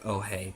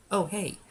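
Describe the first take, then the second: First: Said in the usual way. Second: Much higher sing-song mock greeting; exaggerated oh hey. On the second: Mocking the drive-thru worker with a much higher greeting. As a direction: pitch it way up like a ditzy greeting. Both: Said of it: "She didn't really say".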